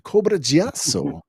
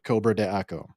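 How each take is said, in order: First: It is blended into one sound, 'Giasso'. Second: It is read as spelled, 'de Aco' separately. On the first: The speaker calls it right. "the figure is actually called Cobra Giasso" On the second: The speaker calls it wrong. "that's not how you pronounce it"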